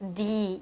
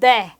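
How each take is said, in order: First: It is pronounced the English way. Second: It is pronounced the Latin way. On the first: "영어식으로 가게 된다면" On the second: "라틴어식으로 발음"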